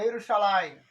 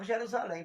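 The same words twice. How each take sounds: First: The word begins without a J sound. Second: The word begins with a J sound. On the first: This is how it is said in Hebrew. "Não existe J. Então é Jerusalém" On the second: This is the usual local way of saying it. "Só falava Jerusalém, porque é a nossa cultura"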